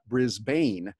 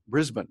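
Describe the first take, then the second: First: It is said with the American pronunciation. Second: It is said with the Australian pronunciation. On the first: The speaker calls it wrong. "not Brisbane" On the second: The speaker calls it right. "the Australians pronounce it Brisbane"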